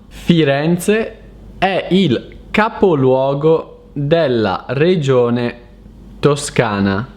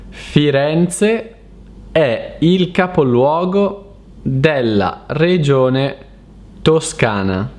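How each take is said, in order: No difference in how they are said.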